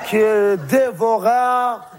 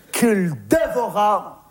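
First: Slow, ominous repeat; drawn out, very slow. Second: Slow dramatic telling. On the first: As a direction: stretch each syllable of qu'il dévora out. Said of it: "repeated even slower". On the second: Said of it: "repeated slower". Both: Shown as a demonstration.

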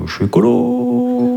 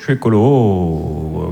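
First: Much higher, slow and drawn out; high slow declaration. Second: Much lower and very slow; low slow declaration. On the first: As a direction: float it up high. (beaucoup plus aigu, lent) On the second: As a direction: drag it out deep. (beaucoup plus grave et très lent) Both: Shown as a demonstration. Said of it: "variations sur la même phrase".

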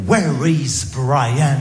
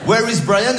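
First: Put-on very slow, French-accented textbook English; heavy French accent, slow schoolbook English; school English accent. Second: Higher, quicker schoolbook question; mock teacher asking in French-accented English. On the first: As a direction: recite it like a bored classroom drill. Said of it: "question existentielle". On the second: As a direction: ask it like the teacher in class. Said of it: "Qu'est-ce qui se passe?".

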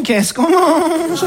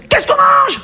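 First: Very slow, drawn-out, higher question; tentative asking. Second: Very high, sudden cry for dinner; peremptory demand. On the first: Husband today asks new-generation woman about dinner, very drawn-out timid question. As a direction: stretch the question out cautiously. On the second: Husband of old home from work demands dinner, sharp high call. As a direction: call it out like an order. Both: Acted.

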